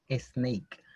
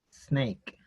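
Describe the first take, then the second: First: An extra vowel sound comes before the s. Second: The word starts directly with the s sound. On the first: The speaker calls it wrong. "Inconscientemente uno va a decir snake" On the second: The speaker calls it right. "la pronunciación correcta sería snake"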